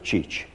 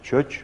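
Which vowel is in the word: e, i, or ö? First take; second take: i; ö. First: The word has a high front vowel, i. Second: The word has a rounded front vowel, ö. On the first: This is the Székely form. "a székelyek úgy mondták" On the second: This is the Szeged-area form. "Szeged környékiek úgy mondták"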